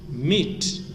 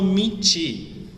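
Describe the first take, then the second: First: The word ends cleanly on the t sound. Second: The word ends with an added ee vowel. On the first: The speaker calls it right. "nós falamos de meat" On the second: The speaker calls it wrong. "Eu não falo meat, tá? Lembrando que não tem um i no final"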